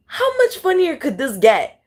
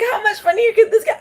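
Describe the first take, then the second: First: Said in the usual way. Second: Very high, laughing through the repeated thought. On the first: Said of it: "I always think". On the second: Shown as a demonstration. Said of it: "I think".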